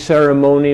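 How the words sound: American accent with a full suffix vowel. This is the older pronunciation. "Americans say"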